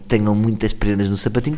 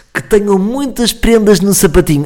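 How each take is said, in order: First: Said in the usual way. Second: Higher, louder, slow and sugary; cheesy greeting. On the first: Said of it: "Nunca digam". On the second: Shown as a demonstration. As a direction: oversell the festive wish, slowly. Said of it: "Nunca digam isto a ninguém". (votos lamechas, mais alto e lento)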